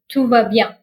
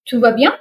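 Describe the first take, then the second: First: The pitch falls at the end like a statement. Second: The pitch rises at the end like a question. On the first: Everything is fine. "which means everything is fine" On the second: Is everything okay? "See how intonation can change the meaning of the expression?"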